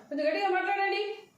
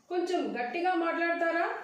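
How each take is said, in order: First: Quick, higher-pitched command; disrespectful demand. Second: Higher, questioning polite request. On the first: Teacher shows how not to ask a caller, disrespectfully. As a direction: make it a brisk order, not a question. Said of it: "ఇర్రెస్పెక్ట్గా ఉంటుంది". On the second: Teacher models asking a caller to speak up, politely. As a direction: ask respectfully, lifting the end. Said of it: "ఇర్రెస్పెక్ట్గా ఉంటుంది కాబట్టి". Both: Shown as a demonstration.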